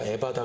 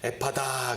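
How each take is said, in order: First: The middle consonant is a plain b. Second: The middle consonant is an aspirated p. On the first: "비읍으로 쓰니까 에바다" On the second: "피읍 발음"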